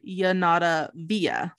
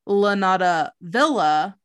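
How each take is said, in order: First: The first word begins with a Y sound. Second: The first word begins with an L sound. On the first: The speaker calls it right. "then I'm going to try to pronounce it the correct way" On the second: The speaker calls it wrong.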